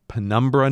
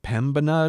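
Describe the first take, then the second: First: The name is said with an R sound. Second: The name is said without an R sound.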